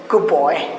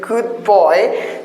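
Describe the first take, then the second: First: The d of good blends into the b. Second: The d of good is clearly released. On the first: "to fill the gap we can say good boy" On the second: "instead of good boy"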